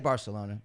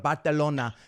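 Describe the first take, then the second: First: It is said with a plain English pronunciation. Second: It is said with a Spanish-style pronunciation. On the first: The speaker calls it right. "Just say Barcelona" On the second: The speaker calls it wrong. "you don't say every country with the accent"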